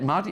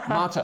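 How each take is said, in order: First: The word ends with an 'ee' sound. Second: The word ends with an 'er' sound. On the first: The speaker calls it wrong. "I heard Mardi" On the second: The speaker calls it right. "there's got to be an er at the end"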